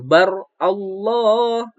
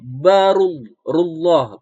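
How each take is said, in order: First: The two words are said apart, unjoined. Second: The two words are joined into one flow. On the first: The speaker calls it wrong. "bukan bar Allah" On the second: The speaker calls it right. "kalau disambung membacaannya jadi barullah"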